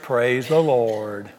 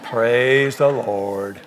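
The two takes are said the same way.

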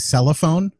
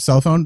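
First: An extra vowel sits between cell and phone. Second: Cell and phone join with no extra vowel. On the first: Someone else's quirky way of saying it. "My grandfather would say cellophone" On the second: The usual way of saying it. "instead of cell phone"

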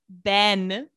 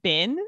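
First: The vowel sounds like the one in 'ben'. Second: The vowel sounds like the one in 'bin'. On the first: The speaker calls it right. "his name's Ben" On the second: The speaker calls it wrong. "it sounded like she was saying Bin"

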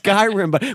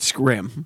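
First: The word is said with two syllables. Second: The word is squeezed into one syllable. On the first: The speaker calls it right. "I think it's Skyrim" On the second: The speaker calls it wrong. "he was pronouncing it Skrim"

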